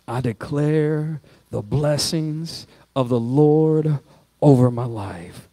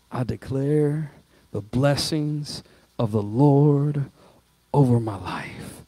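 First: Slow, deliberate "I declare the blessings of the Lord over my life" said again; emphatic declaration repeated. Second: Slow, soft, deliberate "I declare the blessings of the Lord over my life"; emphatic declaration. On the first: Pastor repeating the declaration with the church, slow and steady. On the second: Pastor modelling a declaration for the church, slow and deliberate. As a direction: weigh each word of "I declare the blessings of the Lord". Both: Shown as a demonstration. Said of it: "Make an emphatic statement".

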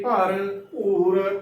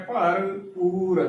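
First: "ਭਰਪੂਰ" slowly with bh in the second half; wrong pronunciation. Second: Very slow "ਭਰਪੂਰ", long oo after p; correct pronunciation. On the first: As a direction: turn the p of "ਭਰਪੂਰ" into bh: bhar-bhoor. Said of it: "ਗਲਤ ਉਚਾਰਨ ਹੋਵੇਗਾ". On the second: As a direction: stretch "ਭਰਪੂਰ" into bhar, poor. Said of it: "ਪੂਰ ਬੋਲਣਾ ਹੈ". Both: Shown as a demonstration.

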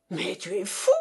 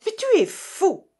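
First: Mildly growled disbelief; growled protest. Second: Loud, high cry of disbelief; exclaimed outburst. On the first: Russian to partner who refuses the share, growling. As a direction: grumble in restrained outrage. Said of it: "gronda Baratov". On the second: Russian to partner giving away pearls, crying out. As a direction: burst out in exasperation. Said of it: "s'écria le Russe". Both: A narrator's reading.

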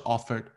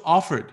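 First: Lazy, mumbled "offered"; wrong way. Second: Crisp "offered" with a clear final d; right way. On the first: Teacher mimics a student's mumbled "offered". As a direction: say "offered" the sloppy way with blurred consonants. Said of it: "你不要说offered". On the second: Teacher models a crisp, clear "offered". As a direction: say "offered" cleanly, every sound bitten off. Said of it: "你说offered". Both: Shown as a demonstration.

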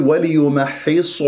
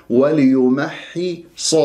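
First: وليمحص with lips rounded on the ص; wrong lip rounding. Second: Slow, careful وليمحص with lips unrounded on ص. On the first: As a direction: round the final صا toward صو in وليمحص. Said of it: "ولا أكور الشفاه، أقول". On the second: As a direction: model وليمحص slowly, heavy ص without rounding. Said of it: "ولا أكور الشفاه". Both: Shown as a demonstration.

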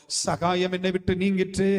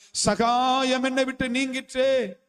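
First: Said in the usual way. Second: Slow, leaning hard on என்னை; slow down and press என்னை; stress on என்னை. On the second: Shown as a demonstration. Preacher repeating Job's verse to the church, slowly, with என்னை stressed.

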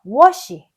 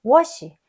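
First: Was she said with the S and SH apart; the mistaken separated was she; wrong version. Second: Was she linked like wash-ee; right version. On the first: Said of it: "was she가 아니라". (틀린 발음 was she) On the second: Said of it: "was she가 아니라 was she". (올바른 연음 was she, wash처럼) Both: Shown as a demonstration.

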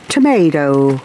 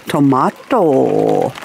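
First: Tomato with "may", "tuh-MAY-doh"; American tomato. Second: Tomato with "mah", "toh-MAH-toh", slow; Australian tomato. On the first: Gardener contrasts American and Australian tomato. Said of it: "You say tomato, we say". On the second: Gardener gives her own Australian tomato. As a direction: say tomato the Aussie way, drawn out. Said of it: "we say tomato". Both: Shown as a demonstration.

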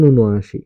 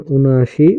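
First: ঊনআশি as "u-no-ashi", falling; spoken pronunciation. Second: ঊনআশি as written, "un-ashi", rising; spelling reading. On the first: Teacher demonstrates pronunciation, ঊনআশি as "u-no-ashi". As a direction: add an o after the n in ঊনআশি. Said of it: "উচ্চারণ". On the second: Teacher reads out a number's spelling, ঊনআশি as "un-ashi". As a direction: say ঊনআশি with n straight into a. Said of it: "বানান". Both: Shown as a demonstration.

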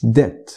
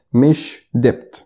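First: Debt said "det", silent b; correct English pronunciation. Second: Debt with the b sounded, "debt-b"; debt said as spelled; wrong pronunciation. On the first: Teacher modelling debt. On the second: Teacher showing the mistaken debt. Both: Shown as a demonstration. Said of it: "اسمها debt مش debt".

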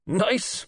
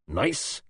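First: High, incredulous echo; demanding. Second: Demanding. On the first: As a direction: repeat it much higher in disbelief. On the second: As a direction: throw the word back as a question. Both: A narrator's reading. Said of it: "he demanded".

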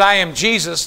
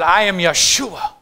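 First: Said in the usual way. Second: "Yeshua" said slowly as yah-SHOO-ah; measured "Yeshua" in place of the English name; Hebrew name. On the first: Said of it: "He wouldn't have said". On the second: Shown as a demonstration. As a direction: say "Yeshua" drawn out, stressing the middle syllable. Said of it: "He would have said".

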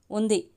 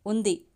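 First: A firm, settled ఉంది with a falling close. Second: Said in the usual way. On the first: A narrator's reading. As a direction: plant the word ఉంది steadily and finally. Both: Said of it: "స్థిరంగా అంది అర్చన".

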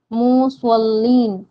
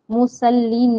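First: मुसल्लीन slowed, with a heavy emphatic s and rounded lips; correct suad sound. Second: मुसल्लीन with a thin s and lips pulled back; wrong sin sound. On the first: Teacher modelling the right मुसल्लीन slowly for students. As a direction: draw out मुसल्लीन with a full ṣād. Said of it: "मुसल्लीन पढ़ना है". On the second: Teacher warning students against the thin-s मुसल्लीन. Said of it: "नहीं पढ़ना है". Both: Shown as a demonstration.

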